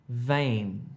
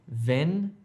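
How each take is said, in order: First: The vowel is a long ay sound. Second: The vowel is a short eh sound. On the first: The speaker calls it right. "if you're trying to say vein" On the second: The speaker calls it wrong. "Don't say ven"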